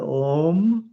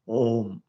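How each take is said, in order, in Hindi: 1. स्वर को काफ़ी देर तक खींचा जाता है। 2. स्वर को बस थोड़ी देर ही रोका जाता है। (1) "यह प्लुत ओम है" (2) "यदि वो तीन की संख्या नहीं होती, तो इसका उच्चारण होता ओम"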